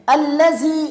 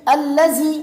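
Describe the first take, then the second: No difference in how they are said.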